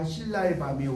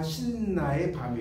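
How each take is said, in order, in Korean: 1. 가운데 자음은 긴 l 소리처럼 들려요. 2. 가운데 자음은 긴 n 소리처럼 들려요. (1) "그러지" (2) "이렇게 안 하죠"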